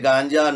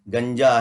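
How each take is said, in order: First: The first vowel is long, like 'gaanja'. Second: The first vowel is short, like 'ganja'. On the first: The speaker calls it wrong. "इसे हमारे channels ने गांजा कर दिया। हुजूर ये गांजा नशा नहीं है" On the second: The speaker calls it right. "गंजा है।"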